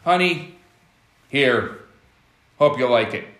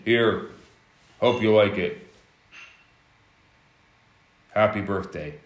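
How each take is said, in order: First: Offhand toss. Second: Lower, dull and indifferent, a mock careless handover; no emotion. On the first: Retold or imitated. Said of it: "tosses the gift on the table". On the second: Husband giving his wife a gift, emotionless and lower. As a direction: hand it over like it means nothing. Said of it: "no emotion".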